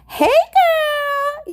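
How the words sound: It is read imitating the commenter's voice.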